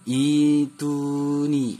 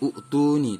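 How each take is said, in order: First: The word opens with a long i sound. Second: The word opens with a u sound. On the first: The speaker calls it right. "yang benarnya adalah dibaca ituni" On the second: The speaker calls it wrong. "atau utuni"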